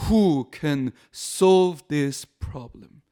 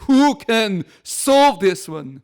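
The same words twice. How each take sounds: First: Very slow, measured English line; steady, drawn-out divine answer. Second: Very slow, louder and higher; booming drawn-out declaration from the pulpit; proclaimed answer. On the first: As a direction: spell out each word calmly as a reply. God's answer, quoted slowly. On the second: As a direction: ring it out word by word like a proclamation. God's answer, proclaimed loudly. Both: Acted.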